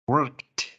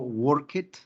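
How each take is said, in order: First: The ending has no extra vowel syllable. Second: The ending is sounded as an extra syllable. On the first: The speaker calls it right. "La D es silenciosa, la E" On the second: The speaker calls it wrong. "yo no digo work it"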